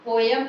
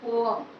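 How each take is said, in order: First: A y glide joins the two vowels. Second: The two vowels meet without a y glide. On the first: The speaker calls it wrong. "यहाँ पोयम नहीं होता है" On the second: The speaker calls it right. "सही pronunciation होता है"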